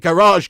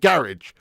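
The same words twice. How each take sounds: First: It is said with an American pronunciation. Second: It is said with a British pronunciation. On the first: The speaker calls it wrong. "We we don't even pronounce it garage" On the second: The speaker calls it right. "We call it a garage"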